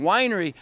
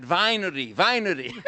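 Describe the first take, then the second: First: "Winery" with an English w sound at the start; pron W in Winery. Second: "winery" said as "vinery", v instead of w; pron winery with v. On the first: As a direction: say "Winery" with a clean w, as the mother says it. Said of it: "Anna was saying". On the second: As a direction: say "winery" with a Hungarian v, like the granddaughter teaching it. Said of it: "you say that". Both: Retold or imitated.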